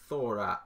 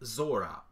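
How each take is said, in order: First: The word begins with a th sound. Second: The word begins with an s sound. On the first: "as it's pronounced in Castilian" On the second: "I have the privilege of being able to pronounce it Zora because my parents are Mexican"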